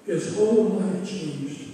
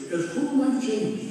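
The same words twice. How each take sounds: First: Slowed down, every word weighed; slow emphatic repeat. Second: Said in the usual way. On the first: Shown as a demonstration. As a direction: repeat it slowly so it sinks in.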